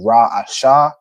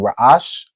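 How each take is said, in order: First: The word ends with a full sha syllable. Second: The word ends on a bare sh consonant. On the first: The speaker calls it wrong. "instead of it being Ra'asha" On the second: The speaker calls it right. "it just becomes ash"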